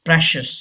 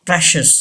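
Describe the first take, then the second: Both takes have the same delivery.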